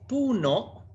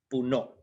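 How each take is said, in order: First: The stress is on the first syllable. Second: The stress is on the second syllable.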